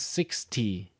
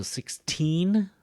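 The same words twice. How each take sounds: First: "sixty" strong on "six", then falling; stress on six. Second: Put-on "sixteen" slow, "teen" rising high; stress on teen. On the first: Teacher showing students that "sixty" falls away after "six". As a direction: start "sixty" strong and let it drop. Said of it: "Notice how I kinda go down". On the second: Teacher showing students that "sixteen" carries its stress on "teen". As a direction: draw out and lift the "teen" in "sixteen". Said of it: "notice the stress is here". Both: Shown as a demonstration.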